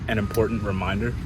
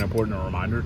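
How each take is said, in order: First: The words are carefully and clearly articulated. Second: The words are run together loosely. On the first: The speaker calls it right. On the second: The speaker calls it wrong.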